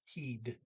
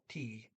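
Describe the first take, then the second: First: The final D is clearly pronounced. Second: The final D is left silent. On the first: The speaker calls it right. "you do pronounce the D" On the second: The speaker calls it wrong. "I didn't pronounce the D"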